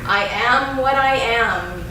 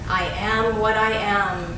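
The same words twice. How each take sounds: First: It is said in a strong, loud voice. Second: It is said in a normal speaking voice. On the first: "first in a strong voice" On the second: "in a regular speaking voice"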